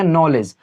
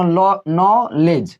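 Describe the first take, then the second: First: Said in the usual way. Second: नॉलेज said very slowly with a silent k, starting over after a false start; slow spelled-out demo. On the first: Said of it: "क्या पढ़ेंगे?". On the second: Shown as a demonstration. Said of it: "यानी किसको पढ़ेंगे?". (नॉलेज धीरे-धीरे, क के बिना बोलकर दिखाना)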